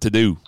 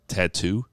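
First: The word has a soft d sound. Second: The word has a crisp t sound. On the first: "just so I could remember how she pronounced it" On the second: "the way she said tattoo"

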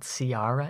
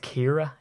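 First: The name begins with an S sound. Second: The name begins with a K sound. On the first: The speaker calls it wrong. "It's not Ciara" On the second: The speaker calls it right. "It's Kira"

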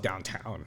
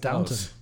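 First: The last syllable sounds like 'town'. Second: The last syllable sounds like 'tun'. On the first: The speaker calls it wrong. "I thought it was downtown" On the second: The speaker calls it right. "it's Downton"

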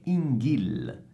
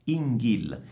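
No difference in how they are said.

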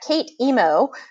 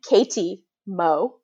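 First: The word break falls after 'Kate'. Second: The word break falls after 'Katie'. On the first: The speaker calls it wrong. "a lot of people pronounce that Kate Emo" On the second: The speaker calls it right. "but it's pronounced Katie Mo anyway"

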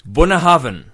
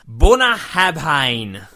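First: The name is said with its local pronunciation. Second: The name is said with an Australian-style pronunciation. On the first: The speaker calls it right. "the correct pronunciation is Bunahavn" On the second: The speaker calls it wrong. "I'll do this in my best Australian attempt at pronunciation"

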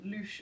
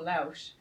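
First: The vowel sounds like 'oo' in moon. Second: The vowel sounds like 'ow' in house. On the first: The speaker calls it right. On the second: The speaker calls it wrong.

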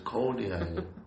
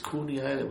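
First: The first vowel is an 'oh' sound. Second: The first vowel is an 'oo' sound. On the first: The speaker calls it right. "but it's Coney Island" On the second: The speaker calls it wrong. "I used to say Coney Island because of Cooney"

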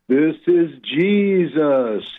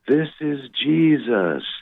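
First: It is said a little louder. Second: It is said at a quiet volume.

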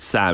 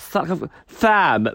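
First: The name begins with a clear S sound. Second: The name begins with a lisped TH sound.

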